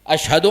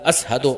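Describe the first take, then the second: First: The word has a 'sh' sound after the first vowel. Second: The word has an 's' sound after the first vowel. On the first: "शीन को शीन बोलो" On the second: "अशहदो की जगह असहदो बोलता है"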